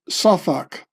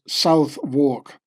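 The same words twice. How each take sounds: First: Southwark is said the British way. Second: Southwark is said the American way.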